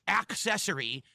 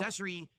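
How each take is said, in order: First: The first syllable has a clear 'k' sound. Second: The first syllable has no clear 'k' sound. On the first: The speaker calls it right. "So I'll say ac" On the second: The speaker calls it wrong. "er, Excuse me"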